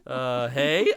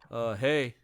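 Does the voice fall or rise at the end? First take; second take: rise; fall. First: The voice rises at the end. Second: The voice falls at the end.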